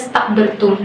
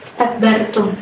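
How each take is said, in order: First: The word starts directly on the consonant cluster. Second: The word starts with a short 'i' vowel. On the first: The speaker calls it wrong. "bukan langsung kepada istakbartum" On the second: The speaker calls it right. "dimulai dari hamzah yang tidak harokat, itu dibaca kasrah"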